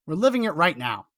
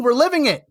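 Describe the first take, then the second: First: Said in the usual way. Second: Higher and louder, LIVING leaned on hard; emphatic cry. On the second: Real, not acted. Host warning his viewers, raised emphatic voice. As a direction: drive home that we're living it. Hammering home the point to viewers.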